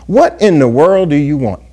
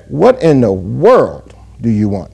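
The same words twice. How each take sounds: First: WHAT leads the question, "world" left unaccented; stress on WHAT. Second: Slow question, "world" stretched out and set apart; stress on WORLD. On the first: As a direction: ask it with the weight on "What". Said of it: "it's what". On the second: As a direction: lean long and hard on "world", pause after it. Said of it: "is on the word world". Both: Shown as a demonstration.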